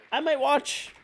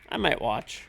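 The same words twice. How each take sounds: First: "I might watch" in a high squeaky voice. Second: Said in the usual way. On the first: Shown as a demonstration. Joking to chat in a high squeaky voice.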